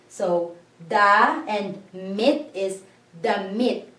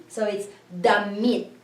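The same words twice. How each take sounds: First: Damit with the i said as ee; da and mit slowly, then damit joined; syllables then blended. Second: Damit said at normal speed, i as ee; just say damit in one go; damit whole word. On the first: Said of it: "it's a hard vowel sound here for the I because it's E". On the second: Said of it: "it's a hard vowel sound here for the I". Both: Shown as a demonstration.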